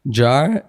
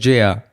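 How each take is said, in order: First: It is said as one syllable with a vowel. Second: It is said as two separate letters. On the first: The speaker calls it wrong. "people still put an A in between" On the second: The speaker calls it right. "I'm like it's J R"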